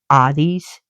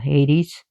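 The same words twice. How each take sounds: First: The name is said with a Greek pronunciation. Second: The name is said with an English pronunciation. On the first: This is how it is said in Greek. "Hades in Greek" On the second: This is how it is said locally in English. "which we call Hades"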